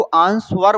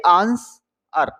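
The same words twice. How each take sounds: First: आंसवर with a clear V or W after the S; sounded W. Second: आंसर slowly, in two pieces without W; silent W. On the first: Teacher quoting the common reading, आंसवर with W sounded. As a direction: say आंसवर as "aans-var". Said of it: "वैसे इसको आंसवर बोलते हैं". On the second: Teacher correcting the reading, आंसर with silent W. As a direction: say आंसर as "aans... ar". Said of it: "डब्ल्यू silent होना चाहिए". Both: Shown as a demonstration.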